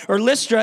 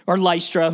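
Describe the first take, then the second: First: Lystra said as LISS-tra; short i pronunciation. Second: Lystra said as LIE-stra; Lystra, rhymes with eye; alternate pronunciation. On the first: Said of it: "he's walking in this town called Lystra". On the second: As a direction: say Lystra with a long i, LIE-struh. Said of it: "whoever, tomato, tomato". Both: Shown as a demonstration.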